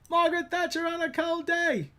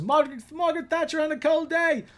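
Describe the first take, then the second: First: Higher, falling repeat; Austin Powers quote. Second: High mock British voice; Austin Powers quote. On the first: Retold or imitated. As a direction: say it again even higher. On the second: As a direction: ham up the Austin Powers line. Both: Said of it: "like when Austin Powers is".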